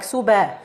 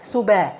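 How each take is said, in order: First: The b is followed by an open a vowel. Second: The same.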